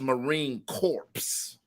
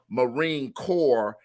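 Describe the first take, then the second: First: The last word sounds like corpse, with final ps. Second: The last word sounds like core, no final sounds. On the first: The speaker calls it wrong. "as Marine Corpse" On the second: The speaker calls it right. "the mispronouncing of Marine Corps"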